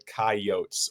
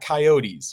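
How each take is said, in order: First: It uses the local regional pronunciation. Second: It uses the general, non-local pronunciation. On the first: The speaker calls it right. "It's the coyotes, or just yotes for short" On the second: The speaker calls it wrong. "It's not coyotes. You don't pronounce it coyotes out here"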